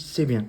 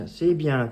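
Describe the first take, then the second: First: Short, firm "C'est bien", louder, with a falling end; 放饭盆时的夸奖. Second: High, loud, drawn-out "C'est bien" with a falling end; praising intonation. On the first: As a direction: say "C'est bien" loudly and briefly, dropping at the end. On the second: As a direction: praise the dog with a higher, longer "C'est bien". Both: Shown as a demonstration. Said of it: "Pas avec la même intonation".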